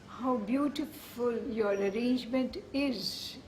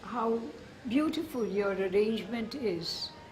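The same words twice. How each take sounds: First: The pitch rises at the end of the phrase. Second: The pitch falls at the end of the phrase. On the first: "the Indian way would be... you would go up" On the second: "In English, you always come down at the end of the sentence"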